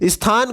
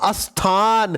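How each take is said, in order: First: The word starts directly with the sth cluster. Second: An extra vowel is added before the sth cluster. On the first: The speaker calls it right. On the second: The speaker calls it wrong.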